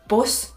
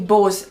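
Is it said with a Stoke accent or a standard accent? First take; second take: standard; Stoke. First: It is said the standard way, like bus. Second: It is said the Stoke way, like buzz.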